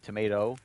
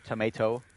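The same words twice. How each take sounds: First: The middle t sounds like a quick soft d. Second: The middle t is a clear, crisp t sound. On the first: This is how Californians say it. "like a, a rolled off D, like tomato" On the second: This is how non-Californians say it. "Sounds weird to us"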